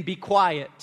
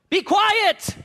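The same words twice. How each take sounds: First: Said in the usual way. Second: High, sharp order to hush; commanding. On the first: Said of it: "they commanded him". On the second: Acted. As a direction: command him to be silent, pitch up. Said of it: "the verbiage is they commanded him".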